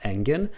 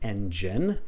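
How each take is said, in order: First: The middle consonant is a hard g sound. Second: The middle consonant is a soft j sound. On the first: The speaker calls it wrong. "not engine" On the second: The speaker calls it right. "it is a j sound. It's engine"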